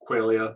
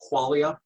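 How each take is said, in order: First: The first syllable does not sound like 'quality'. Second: The first syllable sounds like the start of 'quality'. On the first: "I'll stick with qualia" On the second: "it's like quality"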